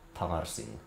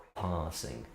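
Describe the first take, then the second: Both takes have the same delivery.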